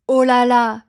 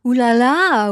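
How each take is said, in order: First: OH with a round O before "là là"; real French reaction, "oh" not "ooh". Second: OUH as a drawn "oo" before "là là"; mock the un-French "ooh là là"; foreign-style ooh là là. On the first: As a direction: say OH LÀ LÀ the native way. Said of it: "use the famous". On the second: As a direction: play up the OO in OUH. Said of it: "but not in the". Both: Shown as a demonstration.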